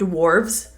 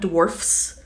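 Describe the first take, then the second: First: The word ends with a V sound. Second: The word ends with an F sound. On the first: The speaker calls it right. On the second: The speaker calls it wrong.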